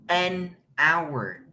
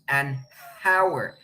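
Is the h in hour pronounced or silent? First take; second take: silent; pronounced. First: Hour starts with a vowel, no h sound. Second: Hour starts with an audible breathy h sound. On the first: The speaker calls it right. "Díganlo conmigo" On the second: The speaker calls it wrong. "No decimos an hour. No se escucha esta h"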